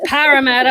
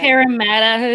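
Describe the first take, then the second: First: "Parramatta" with first vowel as in "pat"; corrected pronunciation. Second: "Parramatta" starting like "pear"; American first vowel in "Parramatta"; mispronunciation. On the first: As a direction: imitate friends correcting "Parramatta" with a short flat A. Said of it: "they're just like". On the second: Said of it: "I said Parramatta". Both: Retold or imitated.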